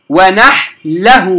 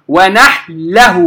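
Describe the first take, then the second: Both takes have the same delivery.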